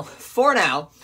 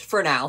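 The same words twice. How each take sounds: First: "For now." repeated louder as a pointed warning; emphatic repeat. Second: Said in the usual way. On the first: Real, not acted. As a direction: lean on "For now." to threaten.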